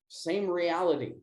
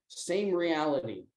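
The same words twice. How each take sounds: The two takes are said the same way.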